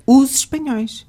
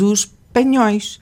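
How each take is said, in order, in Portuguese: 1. O s de 'os' liga-se como z. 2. O s de 'os' é sibilado, não sonoro. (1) "o artigo tem que ter o som de Z" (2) "ai de nós se dissessemos os espanhóis"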